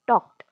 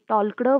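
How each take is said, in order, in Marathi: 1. शब्दात L चा आवाज उच्चारला जात नाही. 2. शब्दात L चा आवाज उच्चारला जातो.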